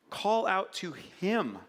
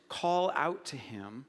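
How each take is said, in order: First: Slow, deliberate "Call out to him"; slow emphatic plea. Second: Said in the usual way. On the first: Real, not acted. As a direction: urge the listeners, slowly. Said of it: "repeated exhortation". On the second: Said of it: "first plain take".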